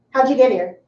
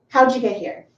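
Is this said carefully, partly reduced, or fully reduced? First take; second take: fully reduced; fully reduced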